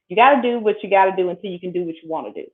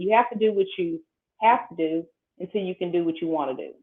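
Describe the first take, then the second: First: It is said quickly. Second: It is said at a slower pace.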